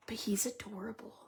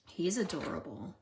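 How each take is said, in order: First: Voiceless whisper, kept secret. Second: Said in the usual way. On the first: Real, not acted. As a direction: whisper so he won't hear. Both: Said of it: "I have to whisper".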